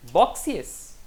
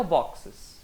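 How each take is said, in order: First: "Boxes" said as "BOK-see-es"; wrong "Boxes" with an extra ee sound before the ending; rejected pronunciation. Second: "boxes" said as "BOK-ses"; accepted pronunciation. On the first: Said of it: "Hum, também não". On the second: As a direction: say "boxes" in two syllables, no ee before the ending. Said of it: "E que tal boxes?". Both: Shown as a demonstration.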